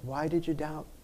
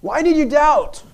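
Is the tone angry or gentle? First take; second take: gentle; angry. First: It is said in a gentle tone. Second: It is said in an angry tone.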